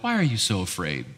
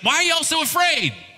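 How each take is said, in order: First: It is said in a gentle, soft tone. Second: It is said in a harsh, scolding tone.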